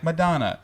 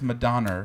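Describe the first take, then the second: First: It is said the standard way, ending in a vowel. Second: It is said Long Island style, with an added R.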